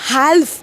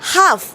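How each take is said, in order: First: An l sound is heard before the f. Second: No l sound is heard in the word. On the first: The speaker calls it wrong. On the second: The speaker calls it right.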